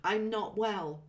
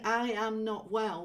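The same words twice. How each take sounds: First: "I'm not well" with I'm run together as one syllable; casual contracted "I'm not well". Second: "I am not well" with "I" and "am" as two separate words; careful full-form "I am not well". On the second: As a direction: say "I am" in full, unshortened. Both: Shown as a demonstration. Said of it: "that includes when we shorten it".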